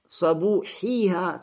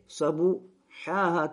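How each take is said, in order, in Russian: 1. Гласный перед последним слогом — 'i'. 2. Гласный перед последним слогом — 'a'. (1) "то есть с кесрой на конце" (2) "то есть с фатхой на конце"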